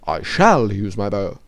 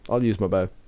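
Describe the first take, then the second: First: Both words 'I shall' are said in full. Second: 'I shall' is shortened to the contraction 'I'll'. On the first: The speaker has careful, formal diction. "They are perfectly spoken Templar Knights" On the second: The speaker talks in an ordinary, casual way.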